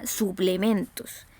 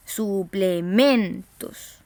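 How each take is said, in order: First: Said in the usual way. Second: "Suplementos" very slowly, syllable by syllable, MEN punched; stressed penultimate syllable. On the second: Shown as a demonstration. Teacher showing the tonic syllable, drawn-out "Suplementos" with heavy MEN. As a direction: stretch out "Suplementos" and hit MEN hard. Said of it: "penúltima sílaba".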